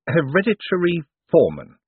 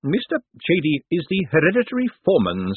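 First: Flat echo of the words, a touch bewildered; blankly repeated. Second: Said in the usual way. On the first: A narrator's reading. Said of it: "Moist repeated blankly".

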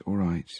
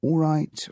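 First: Tired second all right. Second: First all right pitched high, wearily; tired governor, first take high. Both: A narrator's reading.

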